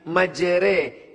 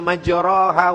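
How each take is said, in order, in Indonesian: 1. Vokal setelah r condong ke e. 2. Vokal setelah r adalah a terbuka. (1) "tapi majre, miring, condong" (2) "Dia tidak dibaca majroha"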